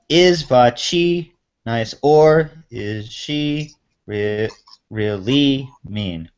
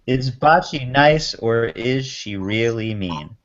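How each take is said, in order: First: The stress falls on unusual syllables. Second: The stress falls on the usual syllables. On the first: The speaker calls it wrong. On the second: The speaker calls it right.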